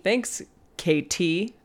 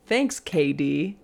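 First: Slow "Thanks, K T" with a true T sound; pronounced T. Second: Slow "Thanks, K D", Katie's T softened to D. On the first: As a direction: split K T and sound the T fully. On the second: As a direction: say K D slowly, with a D sound for the T. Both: Shown as a demonstration. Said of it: "they pronounce their T's".

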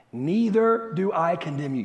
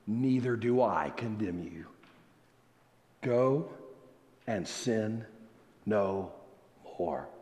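First: Said in the usual way. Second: Low, soft words with long pauses; hushed solemn pardon. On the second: Acted. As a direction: pronounce the pardon quietly and gravely, phrase by phrase. Solemnly voices Jesus' pardon.

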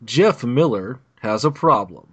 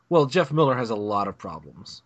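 First: Slow, dramatic trailer announcer; movie trailer voice. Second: Said in the usual way. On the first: Shown as a demonstration. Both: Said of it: "I'm gonna try to do my, uh, movie trailer voice thing".

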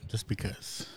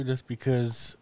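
First: Unvoiced whisper; whispered aside. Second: Said in the usual way. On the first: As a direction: whisper it under your breath. Repeats phrase as a joke.

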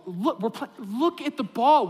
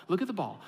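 First: Slower, louder, pleading repeat; exasperated plea. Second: Said in the usual way. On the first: Retold or imitated. Assistant coach to daydreaming four-year-olds, exasperated plea. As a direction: insist like a desperate coach. Coach begging girls to watch.

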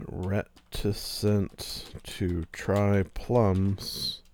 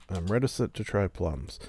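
First: Very slow, savoring each word; slow title read. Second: Said in the usual way. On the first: Shown as a demonstration. Host testing a podcast title, very slow. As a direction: try the phrase out slowly as a title. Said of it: "I do like that as a titleable". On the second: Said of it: "that's a good title".

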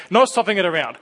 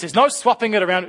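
First: Said in the usual way. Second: Put-on higher, stubborn child voice; insistent child. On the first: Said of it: "you know what this is like". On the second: Child refusing to let the parent swap the Lego piece, higher voice. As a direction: insist like a small kid.

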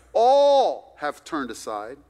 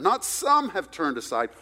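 First: "All" slow, loud and drawn out; stress on ALL. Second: "some" hit as the wrong word; stress on SOME. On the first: Preacher restating the verse, loud stress on "All". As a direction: hammer the word "All". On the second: Preacher correcting a misreading, stress on "some". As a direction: contrast by leaning on "some". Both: Shown as a demonstration.

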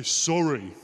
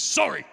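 First: Drawn-out sorry, imitating a child told to mean it; mock-earnest child's sorry; exaggerated meant apology. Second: Curt, grudging mock child's sorry; imitating a reluctant child's apology; insincere apology. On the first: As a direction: stretch out the apology as if trying to sound sincere. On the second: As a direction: toss out a forced sorry, as if made to say it. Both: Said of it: "Say it like you mean it".

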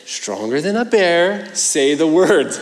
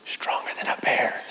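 First: Put-on insistent child. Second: Breathy whispered secret request. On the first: Son pushing dad mid-prayer. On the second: Retold or imitated. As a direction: lean in and whisper it like a bedtime secret. Son whispers request at bedtime.

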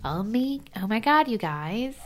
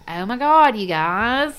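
First: Higher, drawn-out Valley talk with rising end; Valley accent. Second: Louder, higher Southern twang; Southern accent. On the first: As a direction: imitate a Valley accent, stretching the words slowly. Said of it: "I sounded like I was from the Valley". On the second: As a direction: belt it out in an imitated Southern accent. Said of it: "I'd pick up a Southern accent". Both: Retold or imitated.

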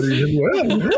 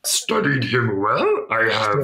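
First: Yoda, higher, falling; the same line echoed back as Yoda. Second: Slow Yoda, rising; drawn-out little alien master. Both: Retold or imitated. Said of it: "sounded more like Yoda".

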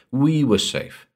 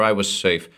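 First: "We" lifted higher, then falling; "We" pitched up to correct oneself; stress on WE. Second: Said in the usual way. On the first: A narrator's reading. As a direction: put the weight on "We" as a correction. Narrator corrects I to we.

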